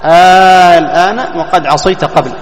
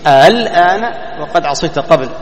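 First: The hamza becomes a long drawn-out vowel. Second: The hamza is softened, between hamza and vowel.

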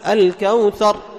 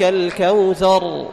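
First: The final R is cut off abruptly. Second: The final R flows for a medium length. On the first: The speaker calls it wrong. "تقطع الصوت مثل أحرف الشدة" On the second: The speaker calls it right. "توسط بين الشدة وبين الرخاوة"

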